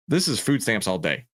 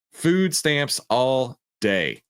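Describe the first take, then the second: First: Said in the usual way. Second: Food stamps all day, slow and higher; drawn-out verdict. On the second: Shown as a demonstration.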